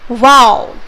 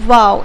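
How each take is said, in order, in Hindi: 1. यह शब्द मज़बूत और जोरदार ज़ोर के साथ कहा गया है। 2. यह शब्द सामान्य तरीके से कहा गया है, बिना अतिरिक्त जोर के। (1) "अगर आप एक्सक्लेमेशन मार्क लगा देते हो ... ज्यादा स्ट्रेस दे रहे हो" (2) "अगर हम सिंपली बोलते हैं इसको"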